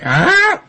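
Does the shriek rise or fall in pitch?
rise. The shriek slides upward in pitch.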